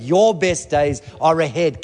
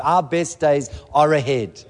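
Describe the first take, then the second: First: YOUR hit slow and firm; stress on your. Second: OUR pushed slow and firm; stress on our. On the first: Pastor turning the promise on the listeners, Your stressed slowly. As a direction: land hard on Your, pointing at them. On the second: Pastor stressing Our to the congregation, slow and firm. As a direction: lean on Our to claim the promise. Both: Shown as a demonstration.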